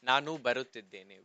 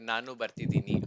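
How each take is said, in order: First: The verb is said in its full form. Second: The verb is said in a shortened form.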